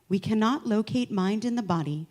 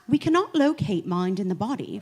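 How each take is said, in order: First: It is read in a plain, everyday accent. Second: It is read in a put-on British, Cockney-like accent.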